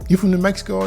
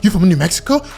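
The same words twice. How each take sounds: First: It is said in a calm, relaxed way. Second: It is said in an overexcited, gushing way. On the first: The speaker is interested but composed. The speaker calls it right. "you don't got to be so excited" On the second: The speaker seems inexperienced and too eager. The speaker calls it wrong. "Calm your ass down"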